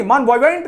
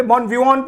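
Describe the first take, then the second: First: "Bon vivant" with a sounded final t; wrong spelled-out pronunciation. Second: "bon vivant" ending in "-von", t silent; correct French-style pronunciation. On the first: Teacher repeats what not to read, mispronounced ending. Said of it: "Bon vivant नहीं पढ़ते". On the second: Teacher shows students how to read it, correct pronunciation. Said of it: "bon vivant पढ़ते हैं". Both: Shown as a demonstration.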